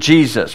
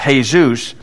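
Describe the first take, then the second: First: The opening J sound is clearly pronounced. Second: The opening J sound is nearly silent. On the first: "we read it Jesus" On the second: "the J is more silent"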